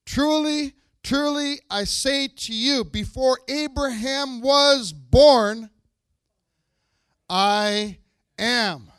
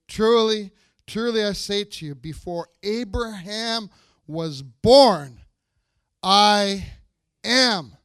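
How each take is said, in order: First: Slow, loud and high, each word weighed; solemn proclamation. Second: Slow and loud, lingering on "born" and pausing before "am"; repeated proclamation. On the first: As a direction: proclaim it with full weight, stretching every word. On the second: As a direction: say it again slowly, letting "I am" land. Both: Shown as a demonstration. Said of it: "Let me say that one more time".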